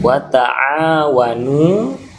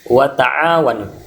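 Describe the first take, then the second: First: The long vowel is held for two beats. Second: The long vowel is held for one beat. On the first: The speaker calls it right. "wa ta'awanu itu dua ketukan ya. Dua ketukan artinya panjang bacaannya" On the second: The speaker calls it wrong. "bukan ... kalau wa ta'awanu itu satu ketukan"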